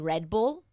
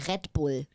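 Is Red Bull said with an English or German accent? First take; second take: English; German. First: It is said with English pronunciation. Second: It is said with German pronunciation. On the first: "I said it like the correct way because it's an English word" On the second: "And I had to say Red Bull"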